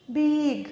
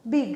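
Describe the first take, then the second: First: বিগ with a long stretched vowel; drawn out. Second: Said in the usual way. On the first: Shown as a demonstration. Teacher testing if the word splits, বিগ drawn out. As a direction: hold the vowel in বিগ before closing it. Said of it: "এটাকে ভাঙতে পারছি না". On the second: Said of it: "একবারে বলতে হচ্ছে".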